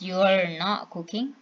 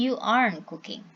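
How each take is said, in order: First: "You are" is shortened to "you're". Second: "Are not" is shortened to "aren't". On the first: "becomes you're not cooking" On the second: "and you aren't cooking"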